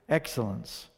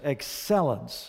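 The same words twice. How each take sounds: First: The word has a local, regional pronunciation. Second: The word has a standard, neutral pronunciation.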